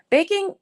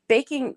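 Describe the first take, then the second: First: "baking" squealed much higher with a lift; excited. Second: Said in the usual way. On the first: Real, not acted. Streamer reads the viewer's word "baking" with delighted high squeal.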